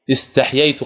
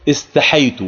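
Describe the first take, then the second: First: استحييت as is-taḥ-yay-tu, y after a closed ḥ; eloquent form. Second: استحيت as is-ta-ḥay-tu, with a single yā; permissible variant. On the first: Teacher shows students the standard word, eloquent pronunciation. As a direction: sound both yā letters in استحييت. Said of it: "هذه هي اللغة الفصيحة". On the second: Teacher shows students the other allowed form, shortened pronunciation. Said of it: "ويجوز أن يقول". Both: Shown as a demonstration.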